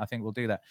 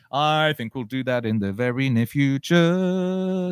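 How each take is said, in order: First: Said in the usual way. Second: Slow, high and loud, held final word; grand drawn-out announcement. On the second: Pretend. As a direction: proclaim it theatrically, stretching the words.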